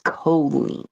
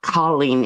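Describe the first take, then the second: First: The first vowel is an 'o' sound. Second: The first vowel is not an 'o' sound. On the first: The speaker calls it right. "it's C O, not C A ... Like cold" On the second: The speaker calls it wrong. "It's not Colleen"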